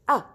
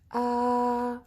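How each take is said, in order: First: The pitch drops sharply from high. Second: The pitch stays level and steady. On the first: "it's like you're cutting your voice suddenly" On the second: "we have to keep our voice in the same line"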